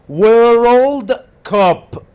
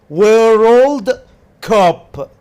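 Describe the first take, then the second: No difference in how they are said.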